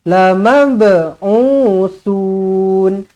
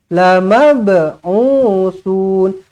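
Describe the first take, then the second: Both takes have the same delivery.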